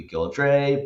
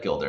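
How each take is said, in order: First: "Gildre" said as GIL-dray; alternative spelling pronunciation. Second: "Gildre" said as GIL-der; older English pronunciation. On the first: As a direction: end "Gildre" on a -dray, rhyming with day. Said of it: "it could be Gildre". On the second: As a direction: end "Gildre" on an unstressed -der, like builder. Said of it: "older English pronunciation of Gilder". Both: Shown as a demonstration.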